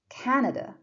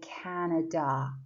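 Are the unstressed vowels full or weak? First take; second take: weak; full. First: The unstressed vowels are short and weak. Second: The unstressed vowels are full and clear. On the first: The speaker calls it right. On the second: The speaker calls it wrong. "So we don't say Canada"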